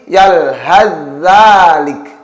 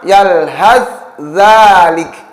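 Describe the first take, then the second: First: The th sound merges into the following dh. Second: The th sound is pronounced separately from the next. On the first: The speaker calls it right. "diidghamkan pada huruf zal" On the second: The speaker calls it wrong. "tidak lagi dibaca"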